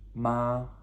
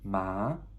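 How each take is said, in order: First: The pitch stays high and level. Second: The pitch goes up from mid to high. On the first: "the first tone is just like a sharp flat" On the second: "it's also called the rising tone"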